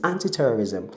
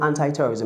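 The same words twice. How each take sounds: First: ANTI-TERRORISM said as "AN-tee-terrorism"; British-style anti. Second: ANTI-TERRORISM said as "AN-tie-terrorism"; "eye" at the end of ANTI in ANTI-TERRORISM; American-style anti. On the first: Teacher correcting broadcasters' pronunciation, British-style anti. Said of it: "it's anti-terrorism". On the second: Teacher showing the form to avoid, American-style anti. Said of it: "It's not anti-terrorism". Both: Shown as a demonstration.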